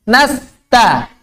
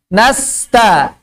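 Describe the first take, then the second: No difference in how they are said.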